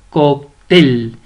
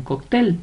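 First: "Cóctel" split in two, TEL punched loud; stress on TEL. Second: Said in the usual way. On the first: Shown as a demonstration. Teacher showing the stressed syllable, "Cóctel" stressed on TEL. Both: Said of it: "La mayor fuerza de voz la lleva en".

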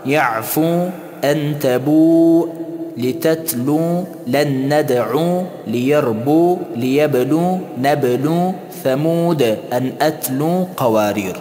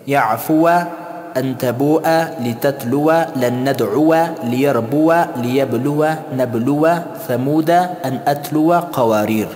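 First: Drawn-out final long u; slow recital with lengthened stop endings; pausal reading. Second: Final alif left silent; joined reading. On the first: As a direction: stop each word on a held 'oo'. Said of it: "در حالت وقف". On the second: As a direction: end each word on a short -wa, brisk list. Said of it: "چه قسم باید تلفظ کنیم". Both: Shown as a demonstration.

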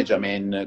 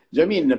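First: JAMIN said French-style, last vowel opened towards "en"; French mispronunciation. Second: JAMIN said with a clear "ee" in the last syllable; Genoese pronunciation. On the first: Founder shows what foreigners call the brand, French-style pronunciation of Jamin. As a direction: say Jamin as the French would, "ja-MEN". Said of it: "come ci chiamano all'estero in Francia". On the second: Founder explains the Ligurian name to outsiders, Genoese pronunciation of Jamin. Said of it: "non è Jamin come ci chiamano". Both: Shown as a demonstration.

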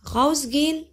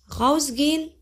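Both takes have the same delivery.

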